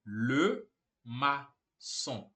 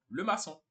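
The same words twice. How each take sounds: First: Le maçon broken into slow separate syllables; spaced out, syllable by syllable; slow syllable-by-syllable demo. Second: Said in the usual way. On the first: Shown as a demonstration. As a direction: model it very slowly for learners. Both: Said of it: "Simples assim".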